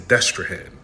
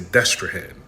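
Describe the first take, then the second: First: The name is said with English sounds. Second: The same.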